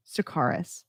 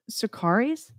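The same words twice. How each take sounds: First: Sakaris with a short "-iss" ending, softer; alternative pronunciation. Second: Sakaris with a long "-eez" ending, rising; questioning pronunciation. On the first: Radio host trying the other way, softer "-iss" ending. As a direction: try Sakaris as "suh-KAR-iss", no question in it. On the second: Radio host asking listeners how it's said, questioning "-eez" ending. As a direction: try Sakaris as "suh-KAR-eez?". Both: Shown as a demonstration. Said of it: "I'm not sure".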